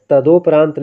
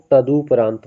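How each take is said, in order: First: तदोपरांत with a long o after द, ta-do-pa-raant; wrong pronunciation. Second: तदुपरांत with a short u after द, ta-du-pa-raant; correct pronunciation. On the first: Teacher showing students the wrong तदोपरांत, with a long o. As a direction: say तदोपरांत as the common mistake, do-parant. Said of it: "ये गलत है". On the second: Teacher giving students the correct तदुपरांत, with a short u. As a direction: say तदुपरांत cleanly with a short u, du-parant. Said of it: "तदुपरांत होता है". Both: Shown as a demonstration.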